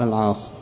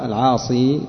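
First: The name ends on a consonant, without a vowel. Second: The name ends with a long i vowel. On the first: "ويقال العاص" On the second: "يقال العاصي"

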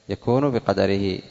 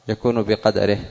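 Both takes have the same delivery.

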